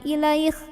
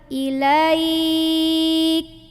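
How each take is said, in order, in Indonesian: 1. Bunyi terakhirnya bunyi gesekan yang serak. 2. k terakhir berhenti dulu, baru napasnya keluar. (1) "Kalau bareng-bareng jadi kayak huruf kho" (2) "ka dulu, ... belakangnya ada ... angin"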